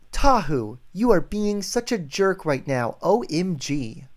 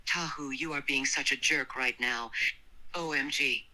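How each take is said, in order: First: Exasperated, higher-pitched mock scolding; playfully indignant line reading; demonstrated annoyed line. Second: Understated annoyance; a restrained, faintly growled complaint; annoyed, slight growl. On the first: Shown as a demonstration. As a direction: act out a fed-up complaint. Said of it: "Can you say that exactly?". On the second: A narrator's reading. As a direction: read it with mild irritation. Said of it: "spoke with annoyance and a hint of a growl".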